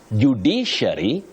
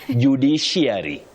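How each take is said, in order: First: The word is said without an added glide. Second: The word is said with an added glide. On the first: The speaker calls it right. "You say ... judiciary" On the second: The speaker calls it wrong. "Judiciary, judiciary, no. You avoid those glides"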